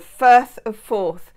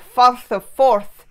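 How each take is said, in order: First: It is said in the speaker's usual accent. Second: It is said in an exaggerated Scottish accent.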